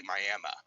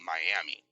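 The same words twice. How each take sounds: First: Miami ending in a soft "uh"; local pronunciation. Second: Miami ending in a clear "ee"; pronounced as spelled. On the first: Oklahoma local explaining a town name, Miami said with an "uh" ending. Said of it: "it's not pronounced that way". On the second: Contrasting spelling with local speech, Miami said with an "ee" ending. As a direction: say Miami as written, "my-AM-ee". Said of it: "but it's spelled Miami". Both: Shown as a demonstration.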